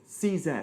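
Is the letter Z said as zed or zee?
zed. Z is said as zed, British style.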